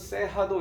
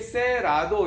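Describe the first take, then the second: First: The middle consonant is an h sound. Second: The middle consonant is an English-style r. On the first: The speaker calls it right. "이 R자가 H 발음으로 되나 봐요" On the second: The speaker calls it wrong. "이렇게 영문식으로 읽으면 안 되고"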